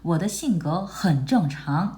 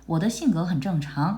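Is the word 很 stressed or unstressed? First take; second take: stressed; unstressed. First: The word 很 is strongly stressed. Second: The word 很 is said without stress.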